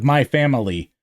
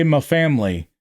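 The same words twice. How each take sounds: First: "my" with a full long i in "my family"; standard "my family". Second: "my" loosened to "mah" in "my family"; country "my family". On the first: Shown as a demonstration. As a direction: say "my family" carefully, every syllable. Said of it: "instead of 'my family.'". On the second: Retold or imitated. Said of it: "such a country accent 'cause you say".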